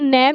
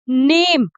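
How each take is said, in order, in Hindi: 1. स्वर एक छोटी खुली 'e' ध्वनि है। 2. स्वर 'ay' ध्वनि है। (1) "नैम नहीं होता दोस्तों, नैम गलत है" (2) "सही तरीका इसके बोलने का क्या है? नेम"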